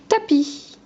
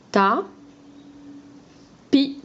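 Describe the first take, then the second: First: Said in the usual way. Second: "Ta. Pi." as two isolated syllables. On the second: Shown as a demonstration. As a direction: say "Ta", pause long, then "Pi". (« Ta… Pi » découpé en deux syllabes) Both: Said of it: "la deuxième syllabe".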